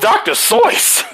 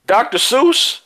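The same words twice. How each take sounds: First: Doctor Seuss said "Doctor Soyce", high and emphatic; correct pronunciation. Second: Doctor Seuss said "Doctor Soos", high and rising; wrong pronunciation. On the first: Speaker revealing the real name to the masses, correct pronunciation. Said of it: "Like soy sauce". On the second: Speaker exposing the name everyone uses, wrong pronunciation. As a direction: rhyme Seuss in Doctor Seuss with "goose", pitched up. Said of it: "that's not how you pronounce it". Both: Shown as a demonstration.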